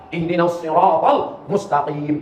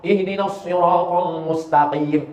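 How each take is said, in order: First: Ihdinas siratal mustaqim with a deep, back-throat qaf. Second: Ihdinas siratal mustaqim chanted slowly; slow recitation. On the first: Preacher modelling correct qaf, slow. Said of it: "Qafnya mesti dalam". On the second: Preacher reciting the verse, slow. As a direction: recite with care. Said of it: "salah pada shad". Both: Shown as a demonstration.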